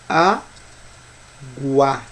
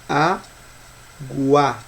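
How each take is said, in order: First: A 'u' sound is heard after the g. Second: The same.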